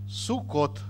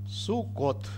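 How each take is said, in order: Both takes have the same delivery.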